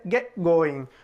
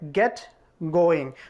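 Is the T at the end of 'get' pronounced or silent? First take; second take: silent; pronounced. First: It is said smoothly with the T dropped. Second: It is said slowly with the T clearly sounded. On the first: "the T is here totally silent, just like native" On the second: "If you read it slowly, you'll say"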